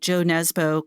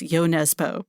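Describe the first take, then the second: First: The first name begins with a J sound. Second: The first name begins with a Y sound. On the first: The speaker calls it wrong. "I'm just going to do the American thing and, and mispronounce" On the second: The speaker calls it right. "I understand from the publisher Knopf that it's Yo Nesbø"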